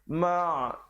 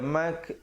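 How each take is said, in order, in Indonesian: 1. Suku kata ini berakhir dengan bunyi ain dari tenggorokan. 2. Suku kata ini berakhir dengan bunyi k. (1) "huruf ain ya" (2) "jangan baca mak jadi huruf kaf"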